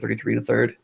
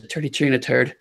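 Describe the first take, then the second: First: The th sounds are fully pronounced as th. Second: The th sounds are dropped, said like t. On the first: "as opposed to" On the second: "you drop the th"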